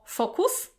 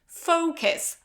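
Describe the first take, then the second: First: The first vowel is not an 'oh' sound. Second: The first vowel is an 'oh' sound. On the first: The speaker calls it wrong. "very often I hear focus or focus" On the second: The speaker calls it right. "So you have this O as in phone"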